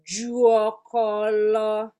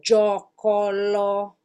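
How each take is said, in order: First: A u vowel is heard after the J. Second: No u vowel is heard after the J. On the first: This is the full original form of the word. "the original word is supposed to be Juokolo" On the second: A vowel has been dropped from the word. "we took the U out"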